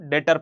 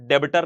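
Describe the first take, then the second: First: No b sound is pronounced in the middle. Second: A b sound is pronounced in the middle. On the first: The speaker calls it right. "इसको डेटर पढ़ना होता है" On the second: The speaker calls it wrong. "बी silent होता है, बी को पढ़ना नहीं होता, डेबिटर नहीं पढ़ना होता"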